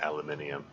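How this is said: It is said the British way, five syllables. "I think it's a British thing that uh, the, the, the spelling it and pronouncing it aluminium"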